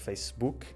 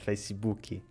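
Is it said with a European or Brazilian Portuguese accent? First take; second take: European; Brazilian. First: It is said the European Portuguese way. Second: It is said the Brazilian way, with a final i.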